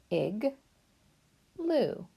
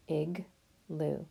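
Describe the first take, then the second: First: "Ig" then "loo", the loo much higher; syllables apart. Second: Said in the usual way. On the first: Shown as a demonstration. Teacher splitting "igloo" into two syllables. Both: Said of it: "Let's mark our two syllables".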